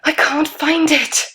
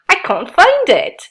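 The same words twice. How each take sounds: First: It is said in a frightened, scared voice. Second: It is said in a comic, unafraid voice. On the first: The situation is frightening. "There would definitely be a feeling of being scared in a horror film" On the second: The situation is funny. "in a comedy"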